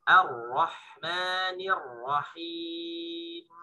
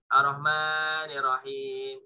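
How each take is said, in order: First: Slow Ar-Rahmanir Rahim with a clear thin A; the right way after the wrong one; correct thin reading. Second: Ar-Rahmanir Rahim said as arohmani with a dark O; wrong heavy reading. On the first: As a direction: recite it properly, drawn out. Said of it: "Bukan ya". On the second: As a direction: mispronounce Ar-Rahmanir Rahim with a rounded O. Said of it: "Jadi bukan dibaca". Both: Shown as a demonstration.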